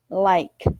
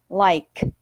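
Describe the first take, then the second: No difference in how they are said.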